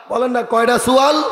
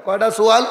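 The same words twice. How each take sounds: First: Calling on the crowd. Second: Said in the usual way. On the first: Real, not acted.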